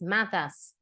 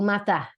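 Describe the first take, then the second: First: The final S is clearly pronounced. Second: The final S is dropped or breathed out. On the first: "Verb conjugations in tu and with S" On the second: "the S is dropped or aspirated, like an H sound in English"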